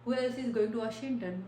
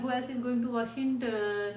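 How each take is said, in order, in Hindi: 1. अंत में पिच नीचे जाती है। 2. अंत में पिच ऊपर जाती है। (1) "इंटोनेशन गोज डाउन" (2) "ऐसे नहीं है"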